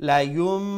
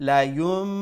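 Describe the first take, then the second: Both takes have the same delivery.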